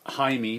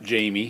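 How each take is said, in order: First: The name is said with a Spanish pronunciation. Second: The name is said with an English pronunciation. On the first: The speaker calls it right. "He goes with the Spanish pronunciation" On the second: The speaker calls it wrong. "not Jamie"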